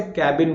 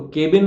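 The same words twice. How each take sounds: First: "कैबिन" with open a as in cat; teacher's "कैबिन", open first vowel; corrected cabin. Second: "केबिन" as KAY-bin; the wrong "केबिन", closed first vowel; mispronounced cabin. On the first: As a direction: say "कैबिन" as KAB-in. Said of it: "आज के बाद से कैबिन बोलना". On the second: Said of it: "केबिन मत बोलना". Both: Shown as a demonstration.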